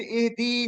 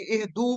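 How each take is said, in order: First: इहदी ending in a long "ee"; wrong verb ending. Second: इहदू ending in a long "oo"; correct plural ending. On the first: Teacher showing students the form to avoid, wrong ending. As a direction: say इहदी with a drawn-out final ee. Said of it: "नहीं पढ़ना बल्कि इहदू पढ़ना है". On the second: Teacher showing students the form to read, correct ending. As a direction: say इहदू with a drawn-out final oo. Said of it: "बल्कि इहदू पढ़ना है". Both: Shown as a demonstration.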